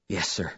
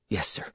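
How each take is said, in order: First: Much softer, low, barely there; a scared boy's soft whisper. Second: Much softer, low, barely audible; a scared boy answers, hushed; softly, afraid of what comes; whispered. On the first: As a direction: answer your father in a frightened hush. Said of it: "I whispered". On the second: Boy answering father before punishment. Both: A narrator's reading.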